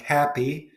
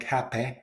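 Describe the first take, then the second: First: Said in the usual way. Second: Happy with the final vowel opened to "eh"; Mancunian pronunciation. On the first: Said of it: "more specifically E". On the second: Shown as a demonstration. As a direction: end happy as "happeh". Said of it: "becomes more like happy".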